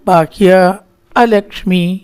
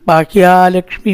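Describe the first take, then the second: First: The vowel before lakshmi is drawn out long. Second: The vowel before lakshmi is kept short. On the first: Misfortune should go outside. The speaker calls it right. "നീട്ടലിന ബാഹ്യ അലക്ഷ്മി തന്നെ പറയണം" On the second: Prosperity should go outside. The speaker calls it wrong. "ലക്ഷ്മിയാവും പുറത്തേക്ക് പോകേണ്ടത്"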